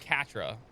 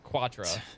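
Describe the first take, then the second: First: The name begins with a plain k sound. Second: The name begins with a kw sound. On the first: "I've never heard it called Catra" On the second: "It's always Quatra. Like quarter"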